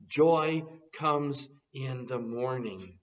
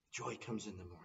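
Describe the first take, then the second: First: Slow and louder, ringing out; triumphant slow declaration; joyful proclamation. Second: Much softer, hushed repeat; quiet reflective echo. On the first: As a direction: proclaim it to the congregation. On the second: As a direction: let it fall to a near hush. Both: Acted. Preacher proclaims then echoes softly.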